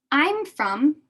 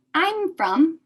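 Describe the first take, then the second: No difference in how they are said.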